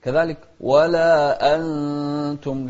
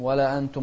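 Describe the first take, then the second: First: ولا أنتم with a sharp glottal stop on أ; clear hamza. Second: ولا أنتم with the أ eased into a glide; softened hamza. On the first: Teacher showing the clear hamza. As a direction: stop cleanly before أنتم. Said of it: "الهمزة أيضًا". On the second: Teacher showing the wrong, softened hamza. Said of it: "ما نسهلها". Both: Shown as a demonstration.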